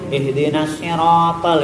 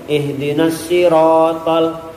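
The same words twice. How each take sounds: First: The voice is nasal, with a twang. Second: The voice is clear, with no nasal twang. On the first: The speaker calls it wrong. "itu berarti ngirung" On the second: The speaker calls it right. "ini murni"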